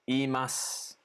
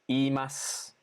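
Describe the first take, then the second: Both takes have the same delivery.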